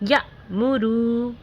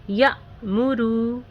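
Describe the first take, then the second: The two takes are said the same way.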